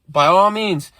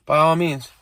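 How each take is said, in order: First: Louder and higher, hitting "all" in "By all means"; mocking echo. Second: Put-on a light girlfriend's voice, falling on "all"; "by all means" with the stress on "all", a hint of the girlfriend. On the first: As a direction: throw "By all means" back at her, sarcastically. He throws her words back at her. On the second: Girlfriend quoted, then mocked back.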